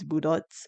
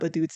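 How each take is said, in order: First: The word sounds like 'budots'. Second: The word sounds like 'badoots'. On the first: The speaker calls it right. "it's budots" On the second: The speaker calls it wrong. "It's not badoots"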